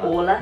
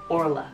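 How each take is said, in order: First: The R sound is not pronounced at all. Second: The R sound is clearly pronounced. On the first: "you can't hear the R" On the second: "American English speakers pronounce R's a lot more"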